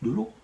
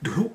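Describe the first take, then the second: First: It sounds disbelieving and doubtful. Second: It sounds excited and enthusiastic.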